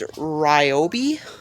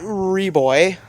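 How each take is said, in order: First: The name is said with three syllables, ry-oh-bee. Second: The name is said with two syllables, ree-boy. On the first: The speaker calls it right. "I think it's Ryobi" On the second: The speaker calls it wrong. "it's not Reboy"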